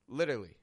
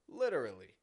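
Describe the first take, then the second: First: One middle syllable is dropped from the word. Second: All syllables of the word are pronounced. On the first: It is a casual, informal use. "It's subtle, but I've taken out a syllable from the middle" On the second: It stresses that the statement is sincerely true. "When a native English speaker says the full word"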